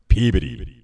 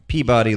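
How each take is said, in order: First: Said the way locals pronounce the city name. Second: Said like the cartoon character's name. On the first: The speaker calls it right. "It's Peabody" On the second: The speaker calls it wrong. "it's not Peabody like in Mr. Peabody"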